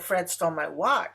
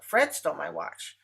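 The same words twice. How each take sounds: First: The stress falls on the word watch. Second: The stress falls on the word Fred. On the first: The thing taken was the watch, not something else. "She didn't steal my pencil" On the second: The thief was this person, not someone else. "Fred did, not Anne"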